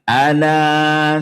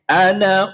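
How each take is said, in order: First: The final vowel is held long. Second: The final vowel is kept short. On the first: The word ends the phrase here. "Bila wakof dibaca panjang dua" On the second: The word runs on into the next word. "Tapi nek wasol dibaca pen pendek"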